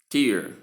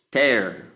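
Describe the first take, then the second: First: "tear" rhyming with "ear"; noun pronunciation. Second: "Tear" rhyming with "air"; verb pronunciation. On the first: Teacher giving tear from the eye, said teer. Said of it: "for the noun". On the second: Teacher giving tear meaning rip open, said tair. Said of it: "second part of the pronunciation". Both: Shown as a demonstration.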